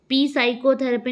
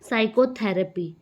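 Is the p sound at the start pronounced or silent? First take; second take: pronounced; silent. First: A p sound is pronounced at the start. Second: The word begins without any p sound. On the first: The speaker calls it wrong. "पी साइकोथेरेपी नहीं बोला" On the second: The speaker calls it right. "मैंने बोला क्या? ... तो पी silent हो गया"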